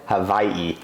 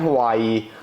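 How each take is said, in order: First: It is said the local island way. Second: It is said the everyday English way.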